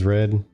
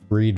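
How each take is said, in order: First: The vowel is short, like in 'bed'. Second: The vowel is long, like in 'need'. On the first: It is the past tense. "Read versus red. Same word. Pronounced differently" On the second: It is the present tense. "Read versus red. Same word. Pronounced differently"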